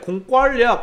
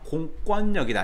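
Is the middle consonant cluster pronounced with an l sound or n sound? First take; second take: l sound; n sound. First: The consonants before the last syllable sound like l. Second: The consonants before the last syllable sound like n. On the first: The speaker calls it wrong. "왠지 리을 때문에 공권력, 공권력하고 유마 리을을 쓸 것 같지만 무조건 틀린다" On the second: The speaker calls it right. "이거 외워라, 외워라. 공권력이다"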